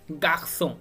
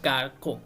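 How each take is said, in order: First: The middle consonant is an s sound. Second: The middle consonant is a k sound. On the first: The speaker calls it right. "तो it's mean हम इसे एस pronounce करेंगे" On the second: The speaker calls it wrong. "We can not से"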